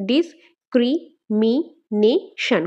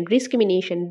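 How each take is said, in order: First: "discrimination" very slow in five beats, dis-cri-mi-na-tion; syllable by syllable. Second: Said in the usual way. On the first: Shown as a demonstration. Teacher breaking up the word for students, "discrimination" said syllable by syllable. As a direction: chop "discrimination" into five parts with pauses. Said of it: "discrimination ওয়ার্ডটাকে ভাঙলে আমরা পাঁচটা". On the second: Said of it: "discrimination ওয়ার্ডটাকে ভাঙলে".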